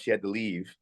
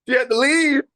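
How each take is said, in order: First: Said in the usual way. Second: Loud, high-pitched exclamation of disbelief; incredulous outburst. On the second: Retold or imitated. Actor recalls the exec walking out on him, incredulous outburst. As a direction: blurt it out, voice shooting way up. Repeats it in mock outrage, laughing.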